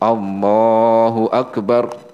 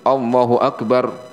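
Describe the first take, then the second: First: It is held for a moderate length. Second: It is clipped too short.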